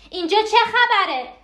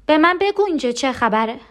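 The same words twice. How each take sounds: First: High, frantic outcry; panicked cry. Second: Urgent, rising question; anxious demand. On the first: Repeats the demand, escalating. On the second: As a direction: press anxiously for an answer. Panicked demand to know. (پرسش مضطرب و مصرانه) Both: Acted.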